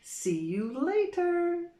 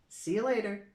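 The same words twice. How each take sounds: First: It is said slowly and carefully. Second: It is said quickly and reduced.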